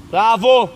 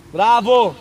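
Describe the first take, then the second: No difference in how they are said.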